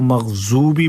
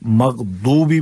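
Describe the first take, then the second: First: The consonant after 'magh' is a z sound. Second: The consonant after 'magh' is a d sound. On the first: "कुछ लोग इसको मग़ज़ूबी पढ़ते हैं" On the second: "कुछ लोग मग़दूबी पढ़ते हैं"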